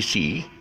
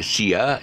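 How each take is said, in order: First: The vowel is one long ee sound. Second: The vowel breaks into two sounds, see-ah. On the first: The speaker calls it right. "is C C" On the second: The speaker calls it wrong. "don't pronounce it one as C, Sia"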